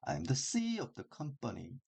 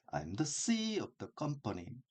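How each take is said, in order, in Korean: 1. 작은 단어는 빠르고 약하게, CEO와 company는 강하게 읽어요. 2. 작은 단어는 빠르고 약하게, CEO와 company는 강하게 읽어요.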